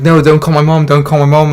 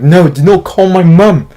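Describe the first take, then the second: First: Loud desperate plea, not yet yelling; urgent loud begging before he snaps; pleading. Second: Loud, slow, higher yell stressing NOT; frustrated sick kid yelling at the babysitter. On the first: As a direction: beg her not to call. Begging babysitter again. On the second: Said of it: "I'm, like, yelling at the babysitter". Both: Retold or imitated.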